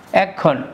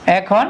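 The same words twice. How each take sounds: First: এখন said as ek-khon, the খ doubled; emphatic doubled consonant. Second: Said in the usual way. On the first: Shown as a demonstration. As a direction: hold the k before releasing এখন. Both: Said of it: "জোর দেওয়ার জন্য".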